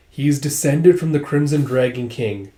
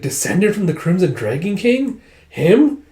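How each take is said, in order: First: Said in the usual way. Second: High, incredulous questioning; acted disbelief. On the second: Dragon doubts the king's bloodline, high incredulous question. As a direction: repeat it in disbelief, HIM shooting up. Listener repeats revelation in disbelief.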